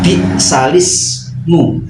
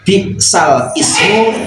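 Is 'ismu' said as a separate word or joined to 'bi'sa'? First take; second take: joined; separate. First: The two parts are joined into one word. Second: The two parts are said as separate words. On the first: This is how it is recited. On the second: This is how it is written.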